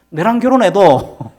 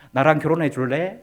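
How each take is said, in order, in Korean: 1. 경상도 사투리 억양으로 말하고 있어요. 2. 표준 서울말로 말하고 있어요. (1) "유창한 경상도 사투리로요. 이렇게 얘기했습니다" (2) "이렇게 멋지게 있잖아요"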